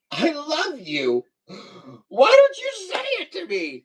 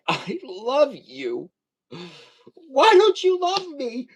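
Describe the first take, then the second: First: Mock plea. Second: Hammed-up pleading to a partner; mock plea. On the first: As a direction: ham up a needy plea to a wife. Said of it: "No, I'd probably say". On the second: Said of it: "I'd be like".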